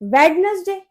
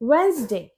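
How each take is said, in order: First: The middle d sound is pronounced. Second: The middle d sound is silent. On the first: The speaker calls it wrong. "ये वेडनेसडे नहीं होता" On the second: The speaker calls it right. "इसमें डी silent होता है"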